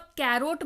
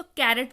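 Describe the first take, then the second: First: "कैरोट" with a long O in the second syllable; mispronounced carrot. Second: "कैरेट" with a short, unstressed second vowel; correct carrot pronunciation. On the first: Teacher warning learners off a misreading, "कैरोट" said with a long O. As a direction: end "कैरोट" on a full "rote" sound. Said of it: "इसको आप कैरोट मत पढ़िएगा". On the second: Teacher showing learners how to read it, "कैरेट" with short second vowel. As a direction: end "कैरेट" on a light "rut", no O sound. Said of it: "इसको कैरेट पढ़िएगा". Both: Shown as a demonstration.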